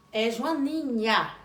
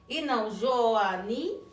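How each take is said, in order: First: Joaninha slow, the final nha clearly voiced. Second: Joania slow, nh replaced by a plain i; wrong Joania. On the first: Teacher modeling Joaninha for children. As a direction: stretch Joaninha, land on nha. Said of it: "com a sílaba final de nha". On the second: Teacher showing the child's error, Joania. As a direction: say Joania without nh, as a mistake. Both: Shown as a demonstration.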